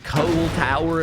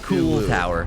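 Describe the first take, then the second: First: The first word has an 'oh' vowel, like coal. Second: The first word has an 'oo' vowel, like cool. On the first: The speaker calls it right. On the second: The speaker calls it wrong. "as if it's like cool"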